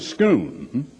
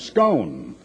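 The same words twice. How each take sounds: First: Scone is pronounced the local Scottish way. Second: Scone is pronounced a different, non-Scottish way. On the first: The speaker calls it right. "as they pronounce it over there" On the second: The speaker calls it wrong. "I confess to having mispronounced that for years"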